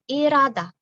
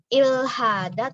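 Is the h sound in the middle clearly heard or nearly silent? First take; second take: nearly silent; clearly heard. First: The h is nearly silent and l sounds like r. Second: The h sound after the l is clearly pronounced. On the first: The speaker calls it right. "tapi irada" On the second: The speaker calls it wrong. "bukan ilhada"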